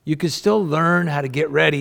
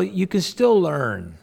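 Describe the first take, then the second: First: Said in the usual way. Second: "you can still learn" said slow, pitched higher on still; slow stressed. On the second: Shown as a demonstration. Pastor urging listeners "you can still learn", slow and stressed. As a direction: lean hard on "still", slowly.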